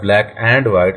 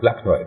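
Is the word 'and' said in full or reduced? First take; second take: full; reduced. First: 'And' is said in full with its d. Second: 'And' is reduced to a short 'n'. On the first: The speaker calls it wrong. "It's not a black एंड white" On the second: The speaker calls it right. "It's a black एंड white"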